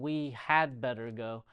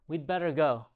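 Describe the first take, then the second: First: The word 'had' is said in full. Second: The word 'had' shrinks to a 'd' sound.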